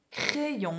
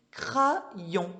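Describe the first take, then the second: First: CRAYON pronounced cré-yon, with an é sound; spoken form, cré-yon. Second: CRAYON read as cra-yon with an open a; as spelt, cra-yon. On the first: Teacher giving the spoken form, CRAYON said cré-yon. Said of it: "on dit". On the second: Teacher showing how it is spelt, CRAYON read cra-yon. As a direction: say CRAYON slowly as written, cra then yon. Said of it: "en vrai, ça s'écrit crayon". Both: Shown as a demonstration.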